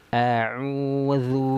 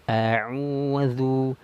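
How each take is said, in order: The two takes are said the same way.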